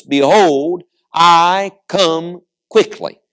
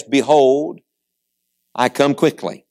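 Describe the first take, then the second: First: "Behold, I come quickly" slowed right down, word by word; weight every word of "I come quickly", with gaps between; repeated for emphasis. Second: Said in the usual way. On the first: Acted. Preacher quoting Jesus's repeat, "I come quickly" slow and emphatic. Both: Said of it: "He repeats himself for emphasis".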